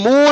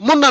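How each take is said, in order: First: The vowel is a long oo sound. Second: The vowel is a short u sound. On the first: The speaker calls it right. "మూన్ అనాలి" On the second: The speaker calls it wrong. "మున్ అనకూడదు"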